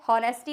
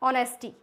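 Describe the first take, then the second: First: The word begins with an h sound. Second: The word begins with a vowel, no h. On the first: The speaker calls it wrong. "हॉनेस्टी नहीं होता है" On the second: The speaker calls it right. "और ऑनेस्टी"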